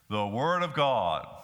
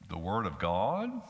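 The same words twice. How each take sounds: First: It is said firmly, with full conviction. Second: It is said doubtfully, like a skeptical question. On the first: The speaker firmly believes it is true. "Or we might say it with confidence" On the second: The speaker questions whether it is true. "We might say it with credulity. Could this book really be the word of God?"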